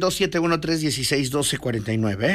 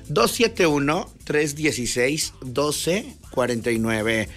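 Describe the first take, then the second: First: The number is said fast. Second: The number is said slowly.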